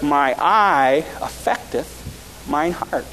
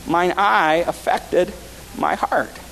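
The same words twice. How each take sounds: First: Solemn scripture reading. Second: Said in the usual way. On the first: Shown as a demonstration. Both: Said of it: "this is my text verse for tonight".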